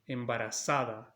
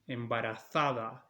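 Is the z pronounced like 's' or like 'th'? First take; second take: s; th. First: The z is pronounced like English s. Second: The z is pronounced like English th. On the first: This is how it is said in Latin America. "embarazada in Latin America" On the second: This is how it is said in Spain. "embarazada in Spain"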